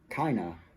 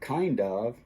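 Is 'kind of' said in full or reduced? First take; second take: reduced; full. First: The D drops and the words blend together. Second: Both words are said fully with the D. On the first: "that D gets eliminated and the N jumps over to the next word" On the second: "instead of kind of"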